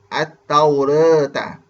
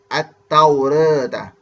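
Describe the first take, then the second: First: The vowel after r is halfway toward e. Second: The same.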